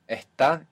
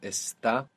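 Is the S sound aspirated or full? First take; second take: aspirated; full. First: The S is aspirated, like a breathy h. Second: The S is pronounced as a full hiss.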